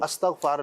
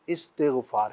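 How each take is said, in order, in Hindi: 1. शब्द 'a' स्वर से शुरू होता है। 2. शब्द 'i' स्वर से शुरू होता है। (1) "अस्तग़फ़ार नहीं है" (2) "इस्तिग़फ़ार है"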